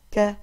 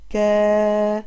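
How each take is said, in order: First: Said in the usual way. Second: كا stretched slowly with a long a; long vowel. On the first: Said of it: "الكاف مع الفتحة". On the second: Shown as a demonstration. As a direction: hold كا out to show the long vowel. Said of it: "وصوتها الطويل".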